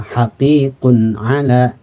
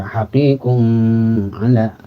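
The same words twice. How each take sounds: First: "Haqiqun ala" with a clean, short N and no lengthening; clear short N. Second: "haqiqun ala" with the N stretched too long; wrong drawn N. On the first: Teacher models the correct short izhar in "Haqiqun ala". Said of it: "bunyikan N tapi tanpa dibaca lama". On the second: Teacher shows a wrong, drawn-out reading of "haqiqun ala". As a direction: drag out the N in "haqiqun ala" as the error. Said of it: "Jadi tidak dibaca". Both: Shown as a demonstration.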